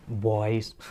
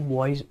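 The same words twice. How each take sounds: First: voice said noticeably lower, smooth and attractive; a deeper, more attractive voice. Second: Said in the usual way. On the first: Shown as a demonstration. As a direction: drop the pitch on voice to sound appealing. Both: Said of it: "voice तुम्हारी ज़्यादा attractive लगती है".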